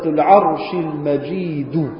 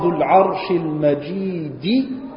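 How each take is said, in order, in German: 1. Das letzte Wort endet auf einen u-Vokal. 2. Das letzte Wort endet auf einen i-Vokal.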